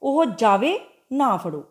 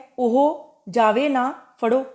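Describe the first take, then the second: First: The pause comes after the word jave. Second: The pause comes after the word na. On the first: Let him go; do not catch him. "उसनूं जान दिता जावे अते फड़िया ना जावे" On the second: Do not let him go; catch him. "उसनूं जान ना दिता जावे, फड़ लिया जावे"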